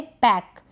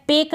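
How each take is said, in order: First: पैक with an open "ae" vowel; correct vowel demo. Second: पेक with a long "ay" vowel; mispronunciation demo. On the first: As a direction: say पैक like English "pack". (पैक में ऐ की मात्रा) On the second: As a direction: say पेक to rhyme with "lake". (पेक में ए की मात्रा) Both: Shown as a demonstration. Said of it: "पेक ना पढ़ें".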